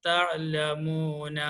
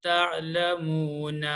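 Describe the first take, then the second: Both takes have the same delivery.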